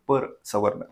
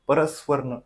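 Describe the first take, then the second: First: It is said as two words, 'par savarna'. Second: It is run together as one word, 'paraswarna'. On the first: The speaker calls it right. "पर सवर्ण असे दोन शब्द आहेत ते" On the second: The speaker calls it wrong. "बरीच विद्यार्थी असं बोलतात परस्वर्ण"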